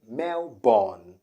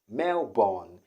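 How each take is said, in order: Both takes have the same delivery.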